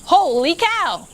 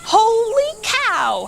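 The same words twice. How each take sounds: First: Thought, same words. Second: High, slow cook's holler. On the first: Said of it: "Manny usually said exactly". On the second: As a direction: holler it out like a startled cook. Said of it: "hollered Manny the cook". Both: A narrator's reading.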